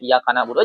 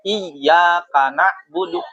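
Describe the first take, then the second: First: The y sound in the first word is short. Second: The y sound in the first word is doubled. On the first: The speaker calls it wrong. "si muridnya salah bacanya" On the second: The speaker calls it right. "Iya-nya di tasdid"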